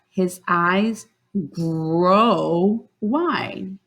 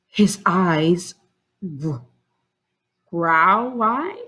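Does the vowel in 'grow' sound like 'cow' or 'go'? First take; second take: go; cow. First: The vowel in grow sounds like in go. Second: The vowel in grow sounds like in cow. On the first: The speaker calls it right. "with the O sound. ... that sounds right" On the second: The speaker calls it wrong. "I used the ow, so that means flower. I used it this way, but that doesn't sound right"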